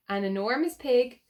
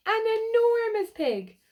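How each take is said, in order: First: Said in the usual way. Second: "An enormous pig." much higher and louder, stretched on "enormous"; excited exclaim. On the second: Real, not acted. Showing the children the huge pig, exclaiming in wonder. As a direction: marvel at "enormous".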